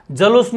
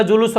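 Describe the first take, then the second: First: जलूस starting with "ja"; wrong form जलूस. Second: जुलूस starting with "ju"; correct form जुलूस. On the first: Teacher rejecting a form, जलूस with "ja" first. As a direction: open जलूस on "ja", then "loos". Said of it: "जलूस नहीं होगा". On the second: Teacher giving the right form, जुलूस with "ju" first. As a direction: open जुलूस on "ju", then "loos". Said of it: "जुलूस होगा". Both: Shown as a demonstration.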